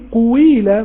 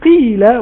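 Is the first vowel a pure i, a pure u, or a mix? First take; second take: pure u; pure i. First: The first vowel is a pure u sound. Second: The first vowel is a pure i sound. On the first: "ولا قلت قويلة" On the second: "ما قلتش قيلة"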